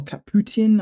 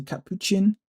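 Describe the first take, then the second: First: Caputin with a t sound in place of ch; alternative pronunciation. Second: Capuchin with a ch sound before the ending; own pronunciation. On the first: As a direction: say "Caputin", ending in "tin". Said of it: "I don't know how people pronounce it". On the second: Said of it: "I say Capuchin". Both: Shown as a demonstration.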